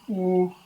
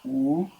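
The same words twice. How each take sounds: First: The word is said at a higher pitch. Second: The word is said at a lower pitch. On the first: It refers to a third person. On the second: It refers to the person spoken to.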